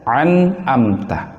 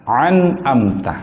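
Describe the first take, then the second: Both takes have the same delivery.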